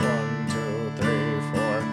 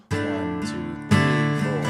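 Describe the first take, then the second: No difference in how they are said.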